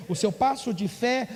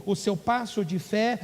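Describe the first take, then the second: No difference in how they are said.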